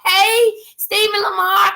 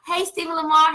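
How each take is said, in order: First: High, loud and slow, stretched toward a viewer; a sing-song shout-out to a friend watching; called-out greeting. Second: Said in the usual way. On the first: Real, not acted. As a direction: call the name out high and drawn-out. Calling out a viewer's name.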